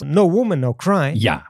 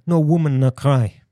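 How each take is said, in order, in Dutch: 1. De tweede 'No' heeft een volle o-klinker. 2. De tweede 'No' heeft een ontspannen schwa-klinker.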